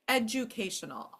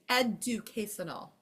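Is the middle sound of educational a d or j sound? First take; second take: j; d. First: The middle sound is a j sound. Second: The middle sound is a plain d sound. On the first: The speaker calls it right. "We do say that with a J" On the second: The speaker calls it wrong. "We don't even say that, right?"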